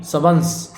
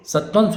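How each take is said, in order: First: सवंश as "sa-vansh". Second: सत्वंश as "sat-vansh"; extra t. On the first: Teacher correcting the word, सवंश without the "t". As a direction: say सवंश with plain "v". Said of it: "सत्वंश गलत है". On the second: Teacher showing the mistake, सत्वंश with "tv". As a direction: sound a "t" in सत्वंश. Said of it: "सत्वंश नहीं". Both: Shown as a demonstration.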